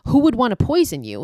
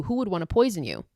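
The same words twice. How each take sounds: First: Put-on raised, higher anguished call to the children; urgent plea. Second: Said in the usual way. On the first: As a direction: call out to them, louder and higher. Medium pleading with dying ghost children.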